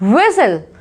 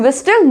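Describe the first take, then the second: First: No t sound is heard in the middle. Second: A t sound is heard in the middle. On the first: The speaker calls it right. "इसे पढ़ेंगे विसल" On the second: The speaker calls it wrong. "विस्टल no"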